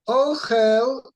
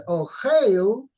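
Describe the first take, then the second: First: "Ochel" with a short open e, "o-CHEL", said higher and louder; sego vowel under chof. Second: "ochel" slow, with a long ei under the chof, "o-CHEIL"; tzere vowel under chof. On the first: Teacher shows the noun form to the study partner, short e in "Ochel". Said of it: "punctuated with a sego". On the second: Teacher contrasts the verb form for the partner, slow long ei in "ochel". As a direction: stretch "ochel" with a tzere, ay as in day. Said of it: "the chof has a tzere under the chof". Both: Shown as a demonstration.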